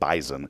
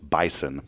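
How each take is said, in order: First: The middle consonant is a buzzing Z sound. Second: The middle consonant is a hissing S sound. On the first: "They say Z up there in Fargo" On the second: "It's bison, by the way"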